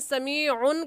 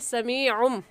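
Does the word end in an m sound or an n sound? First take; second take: n sound; m sound. First: The word ends with an n sound. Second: The word ends with an m sound. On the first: The speaker calls it wrong. "समीउन कहना गलत है" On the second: The speaker calls it right. "सही है समीउम"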